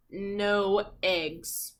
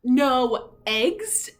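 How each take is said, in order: First: Said in the usual way. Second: Rising, louder disbelief; can't believe what he reads; shocked question. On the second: Acted. Farmer reading the note, loud and disbelieving.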